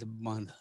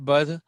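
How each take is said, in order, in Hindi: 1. स्वर नाक से बोला जाता है। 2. स्वर बिना अनुनासिक ध्वनि के बोला जाता है। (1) "इट्स बंद, नाक में से स्वर आएगा उसका" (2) "इट्स नॉट"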